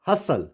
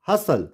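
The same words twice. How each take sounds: The two takes are said the same way.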